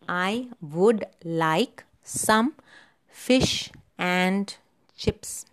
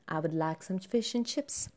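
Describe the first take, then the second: First: The small words are said in full. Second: The small words are said reduced. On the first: The speaker calls it wrong. "Strong form, ... this is very unnatural" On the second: The speaker calls it right. "So the weak form would be"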